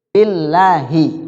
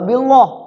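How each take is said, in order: First: The L is pronounced light and thin. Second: The L is pronounced heavy and thick. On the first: The speaker calls it right. "Harus tarqiq" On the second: The speaker calls it wrong. "enggak billah, kagak"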